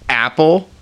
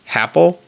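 First: The word starts with a sharp glottal catch. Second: The word starts with a breathy h-like puff. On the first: "and that's the glottal stop" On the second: "you either have to aspirate a little bit before the A"

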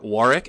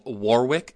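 First: The name is said in a British way. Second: The name is said in an American way.

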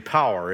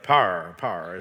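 First: The word is said in a standard accent. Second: The word is said in a Texas accent. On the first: The speaker calls it right. "It's supposed to be power" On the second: The speaker calls it wrong. "I still have a horrible Texas accent"

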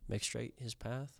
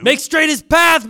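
First: It is said softly and trails off. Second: It is said loudly, like a yell. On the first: The speaker calls it wrong. "You kind of trailed off that make straight his path" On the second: The speaker calls it right. "You got to yell it"

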